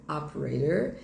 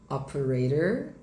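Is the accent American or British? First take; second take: American; American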